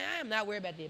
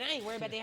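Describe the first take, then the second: First: It sounds gentle and reassuring. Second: It sounds cold and dismissive.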